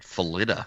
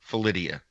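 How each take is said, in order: First: No extra sound comes before the final 'a'. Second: An extra 'ee' sound comes before the final 'a'. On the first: The speaker calls it right. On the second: The speaker calls it wrong.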